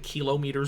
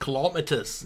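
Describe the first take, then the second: First: It is said in the speaker's plain accent. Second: It is said in an Australian accent.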